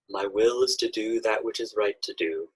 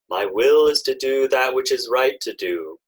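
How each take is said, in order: First: It is spoken in a quiet voice. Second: It is spoken in a loud voice. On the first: It brings the idea into the subconscious. "affirming it quietly" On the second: It awakens the idea in the conscious mind. "in a loud speaking voice"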